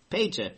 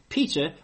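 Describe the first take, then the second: First: The first vowel is an 'ay' sound. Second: The first vowel is an 'ee' sound. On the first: "would be better pronounced Pater" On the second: "spelled with an E"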